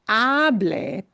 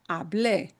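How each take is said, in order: First: The stress is on the first syllable. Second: The stress is on the last syllable.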